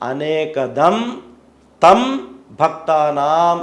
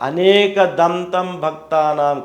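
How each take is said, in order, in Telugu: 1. 'anekadam' తర్వాత విరామం ఉంది. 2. పదాలు విరామం లేకుండా కలిసిపోతాయి. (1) "అనేక దం తర్వాత తం విడదీసి చదవాలి" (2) "మొత్తం కలిపి చెప్తే"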